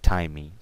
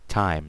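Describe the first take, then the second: First: An extra vowel is sounded at the end. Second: The word ends cleanly with no extra vowel. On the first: The speaker calls it wrong. "not timey" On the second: The speaker calls it right.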